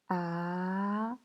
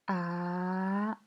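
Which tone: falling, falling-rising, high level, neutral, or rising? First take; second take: rising; rising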